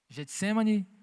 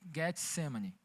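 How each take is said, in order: First: The name is said in the familiar Portuguese way. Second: The name is said in its original Hebrew way. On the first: This is the commonly known form. "no conhecido jardim" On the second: This is the original form of the name. "na pronúncia original"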